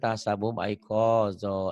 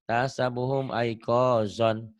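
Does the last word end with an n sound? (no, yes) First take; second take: no; yes. First: The last word ends without an n sound. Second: The last word ends with an n sound. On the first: The reading stops at this word. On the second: The reading continues without stopping.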